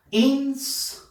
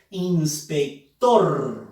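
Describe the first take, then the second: First: "Inspector" in separate pieces, "Ins, pec, tor"; syllable by syllable. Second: "Inspector" slowly, with a long strong final "tor"; stress on TOR. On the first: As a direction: sound out "Inspector" slowly with pauses between syllables. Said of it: "debemos silabear". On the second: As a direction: stretch and hit the last syllable, "ins-pec-TOR". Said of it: "en la sílaba tor". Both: Shown as a demonstration.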